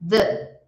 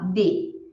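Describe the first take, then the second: First: The word begins with a th sound. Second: The word begins with a d sound. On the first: The speaker calls it right. "A gente fala the" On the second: The speaker calls it wrong. "A gente não fala de"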